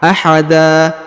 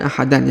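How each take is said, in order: First: The word ends on a long open vowel. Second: The word ends with an n sound. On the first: The speaker calls it right. "tanwinnya berubah menjadi fathah ya, a" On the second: The speaker calls it wrong.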